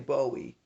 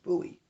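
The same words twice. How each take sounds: First: It is pronounced like the singer's name. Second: It is pronounced unlike the singer's name. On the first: The speaker calls it wrong. "you don't say Bowie like the singer" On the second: The speaker calls it right. "It's Bowie"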